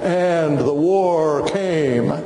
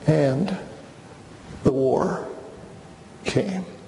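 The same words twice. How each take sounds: First: It is said in a grand, oratorical way. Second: It is said in a somber, regretful way.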